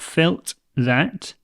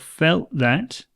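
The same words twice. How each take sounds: First: The final T of felt is clearly pronounced. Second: The final T of felt is dropped. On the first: The speaker calls it wrong. "not felt that" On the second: The speaker calls it right. "but felt that"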